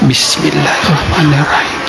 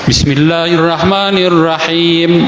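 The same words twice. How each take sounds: First: The phrase is recited quietly, under the breath. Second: The phrase is recited aloud, in full voice. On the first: "dibaca bismillah itu secara sir" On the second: "dibaca jahar di rakaat pertama"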